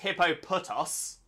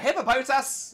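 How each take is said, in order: First: The last syllable has an 'oh' vowel. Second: The last syllable has an 'ah' vowel. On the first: The speaker calls it wrong. "I don't know how it could ever be pronounced Hippopotos" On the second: The speaker calls it right. "it's an O T A in the last bit"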